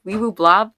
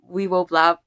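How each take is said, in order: First: Weeble Blob? asked with a rising tune, testing it; unsure rising check. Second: Said in the usual way. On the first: Shown as a demonstration. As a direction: try the name out as a question. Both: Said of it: "Am I pronouncing your username right".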